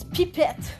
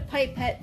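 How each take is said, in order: First: The word is pronounced in a French way. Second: The word is pronounced in an English way. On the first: The speaker calls it right. "That's how you pronounce it in French" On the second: The speaker calls it wrong. "I know people call it a pipette"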